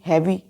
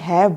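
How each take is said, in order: First: The word ends with an extra vowel sound. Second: The word ends on a consonant, no final vowel. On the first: The speaker calls it wrong. "हम हैवी तो नहीं बोलते ना, H A V E हैवी, no" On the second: The speaker calls it right. "H A V E हैव बोलते हैं"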